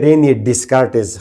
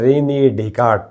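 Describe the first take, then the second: First: The final s and t sounds are pronounced. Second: The final s and t sounds are silent. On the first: This is how it is commonly said locally. "हम बोलते हैं रेनी डिस्कार्टिस" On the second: This is the original French pronunciation. "मगर ये एक्चुअली है रेनी डेकार्ट"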